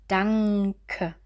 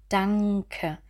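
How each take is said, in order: No difference in how they are said.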